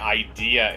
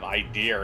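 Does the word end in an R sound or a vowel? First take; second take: vowel; R sound. First: The word ends in a plain vowel sound. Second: The word ends with an added R sound. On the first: The speaker calls it right. "train yourself to say idea" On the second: The speaker calls it wrong. "instead of idea"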